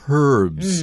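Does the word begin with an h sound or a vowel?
h sound. The word begins with a clear h sound. "In British English, the same word is pronounced herbs. They use the sound of the H"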